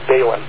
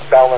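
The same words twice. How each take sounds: First: The first vowel is a long A sound. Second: The first vowel is a short A sound. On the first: The speaker calls it wrong. "not balun. The A is not a long A" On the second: The speaker calls it right. "Most people, by the way, pronounce it balun"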